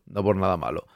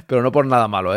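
First: Much lower and softer, nearly under his breath; hushed aside. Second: Said in the usual way. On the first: Real, not acted. To chat, repeating his reassurance as a hushed aside. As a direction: drop it way down, almost to yourself.

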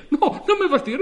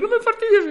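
First: Loud, high, laughing plea; half-laughing protest, pitch up; laughing plea rising high; pleading cry. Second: Much higher and louder repeat; escalating laughing plea, higher still; desperate high cry. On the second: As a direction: push the plea up to a near-shriek. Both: Acted. Customer pleads with operator.

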